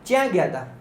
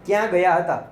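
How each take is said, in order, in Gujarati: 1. છેલ્લો શબ્દ ટૂંકાવીને 'ta' કરવામાં આવે છે. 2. છેલ્લો શબ્દ પૂરો બોલાય છે, 'hata'. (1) "આ બોલી બદલાય છે" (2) "એને બદલે"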